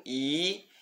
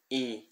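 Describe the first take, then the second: First: "I" held long; drawn-out Latin long "I"; long vowel i. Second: "I" short and soft; brief Latin short "I"; short vowel i. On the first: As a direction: stretch the "I" out. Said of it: "tem o I longo". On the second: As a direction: clip the "I" quickly. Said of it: "e o I breve". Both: Shown as a demonstration.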